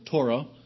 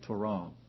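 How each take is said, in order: First: The stress is on the first syllable. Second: The stress is on the second syllable. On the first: "Some pronounce it Torah" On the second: "Most lexicons put the syllable on the accent on the second syllable"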